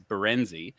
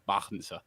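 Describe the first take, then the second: First: The surname is said with anglicized pronunciation. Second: The surname is said with Dutch pronunciation. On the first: This is a simplified form adopted for convenience. "the bastardized version of it is Berenzi" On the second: This is the family's original name. "That's the Dutch"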